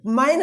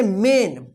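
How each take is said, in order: First: "मैन" with an open "ai" vowel; wrong "मैन". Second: "मेन" with a long "e" vowel; correct "मेन". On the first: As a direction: open "मैन" up, as a misreading of main. ("मैन" में ऐ का ग़लत उच्चारण) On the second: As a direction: say "मेन" to rhyme with "rain". ("मेन" में लंबा ए उच्चारण) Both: Shown as a demonstration. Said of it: "मैन नहीं होगा".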